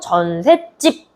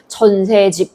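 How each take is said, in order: First: The last syllable starts with a tense consonant. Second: The last syllable starts with a plain consonant. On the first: "전셋집 이렇게 얘기하니까" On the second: "전세집 이렇게 얘기하는 거"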